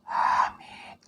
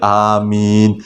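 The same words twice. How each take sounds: First: It is said in a faint whisper. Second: It is said aloud in a normal voice.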